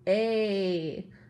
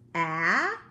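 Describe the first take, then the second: First: The vowel is long, as in date. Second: The vowel is short, as in cat. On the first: "like in the first word, date" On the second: "like in cat"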